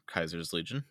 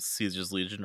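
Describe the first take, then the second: First: The first word begins with a k sound. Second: The first word begins with an s sound. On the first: "that is the Latin pronunciation" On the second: "depending on how you want to pronounce it"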